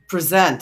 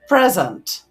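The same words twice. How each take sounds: First: The stress is on the second syllable. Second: The stress is on the first syllable. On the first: It is a verb. "That present is a verb. So the second syllable stress occurs when it's a verb" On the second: It is a noun meaning a gift. "nouns are generally carrying first syllable stressed words like um"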